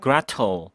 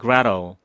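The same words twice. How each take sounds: First: The t is pronounced as a crisp t. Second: The t is flapped like a light r. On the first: "T를 살리면서 Gretel 이렇게 발음하는" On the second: "리을로 굴리는 Gretel"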